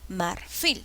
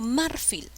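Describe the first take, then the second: First: The stress is on the last syllable. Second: The stress is on the first syllable. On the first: The speaker calls it right. "digo marfil. ¿Cuál es la sílaba que lleva la mayor fuerza? Fil" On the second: The speaker calls it wrong. "Yo no digo marfil"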